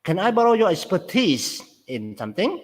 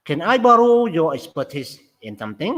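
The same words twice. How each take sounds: First: "expertise" said higher, pitch leaps on it; stress on expertise. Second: Fast example read. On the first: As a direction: push the word "expertise" up, let "in something" drop. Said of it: "Stress វានៅលើ exp-, expertise". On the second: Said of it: "តើគេ stress កន្លែងណា?". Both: Shown as a demonstration.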